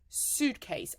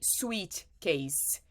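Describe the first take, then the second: First: The first syllable sounds like 'suit'. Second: The first syllable sounds like 'sweet'. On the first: The speaker calls it right. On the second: The speaker calls it wrong.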